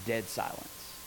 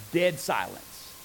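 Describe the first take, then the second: First: Dropped low and very soft; hushed. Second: Said in the usual way. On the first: Shown as a demonstration. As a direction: let the room go silent. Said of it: "whoop, dead silence".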